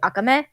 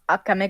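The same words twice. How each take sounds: First: The stress is on the last syllable. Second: The stress is not on the last syllable. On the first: The speaker calls it right. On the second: The speaker calls it wrong.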